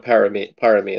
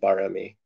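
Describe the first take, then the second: First: The word begins with a P sound. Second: The word begins with a B sound. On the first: This is the form matching the spelling. "it's spelled with a P" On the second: This is how Thai speakers say it. "the Thais always call it barami"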